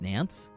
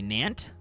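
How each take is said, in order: First: The word ends with a clear s sound. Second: The word ends with a hard t sound. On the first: "How is this actually pronounced?" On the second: "Hard T"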